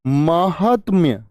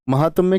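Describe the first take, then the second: First: महात्म्य drawn out slowly as maa-haat-mya; long first vowels in महात्म्य, t joined to m; slow, falling model of महात्म्य; correct pronunciation. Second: महात्म्य as ma-ha-tam-ya; wrong form questioned. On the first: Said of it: "क्या होती है?". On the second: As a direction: put an extra "a" before the m in महात्म्य. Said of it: "जी नहीं". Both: Shown as a demonstration.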